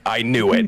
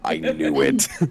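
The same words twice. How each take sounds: First: It is said in the speaker's normal voice. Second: It is said in a put-on character voice.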